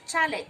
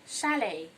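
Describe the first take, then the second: First: The word begins with a ch sound. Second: The word begins with a sh sound. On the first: The speaker calls it wrong. "people pronounce this word as chalet. No, that is not correct" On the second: The speaker calls it right. "letter C H gives the sound sh"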